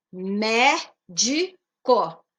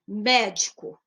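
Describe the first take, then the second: First: "médico" drawn out very slowly, mé-di-co; syllable by syllable. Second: Said in the usual way. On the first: Shown as a demonstration. Teacher spelling out the syllables of "médico", very slowly. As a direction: stretch "médico" into its three syllables. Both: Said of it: "Ela é trissílaba".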